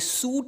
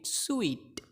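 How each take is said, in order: First: The word sounds like 'suit' with an 'oo' vowel. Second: The word sounds like 'sweet' with an 'ee' vowel. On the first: The speaker calls it wrong. "ये सूट नहीं है" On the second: The speaker calls it right. "Like स्वीट के जैसा स्वीट"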